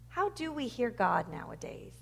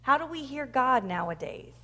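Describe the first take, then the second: First: Softer repeat. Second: Said in the usual way. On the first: Real, not acted. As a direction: question repeated more softly, to ponder. Same question repeated softer for reflection.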